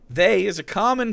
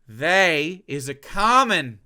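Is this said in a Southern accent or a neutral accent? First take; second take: neutral; Southern. First: It is spoken in a neutral, non-Southern accent. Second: It is spoken in a Southern American accent.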